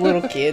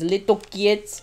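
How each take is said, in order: First: It is said in a plain accent. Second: It is said in a heavy Slavic accent. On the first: "Instead of" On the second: "she says"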